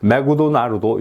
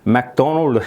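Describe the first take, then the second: First: Extra vowels are added after the consonants. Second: The consonants are said without added vowels. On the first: The speaker calls it wrong. "일본어 모라식 발음" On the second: The speaker calls it right. "맥도날드 해야 될 거를"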